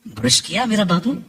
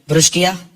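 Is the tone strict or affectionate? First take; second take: affectionate; strict. First: It is said in a warm, affectionate tone. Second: It is said in a curt, strict tone.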